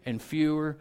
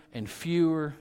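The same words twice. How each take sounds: The two takes are said the same way.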